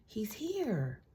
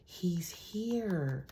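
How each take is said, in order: First: Higher, voiced and thrilled; excited reveal. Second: Whispered, falling at the end; dramatic whisper. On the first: To the viewer, confirming he is coming: a thrilled, higher call. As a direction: let it burst out, pitched up. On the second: To the viewer, revealing the man in the cards: an eerie whisper. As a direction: hush it like a secret reveal. Announcing the Emperor card's arrival. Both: Real, not acted.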